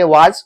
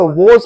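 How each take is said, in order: First: "was" as "waaj", long aa and final j; wrong pronunciation. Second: "was" as "woz", rounded o; correct pronunciation. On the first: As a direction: say "was" the mistaken way, rhyming with "taaj". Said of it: "was नहीं पढ़ेंगे". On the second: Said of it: "इसको was पढ़ेंगे". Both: Shown as a demonstration.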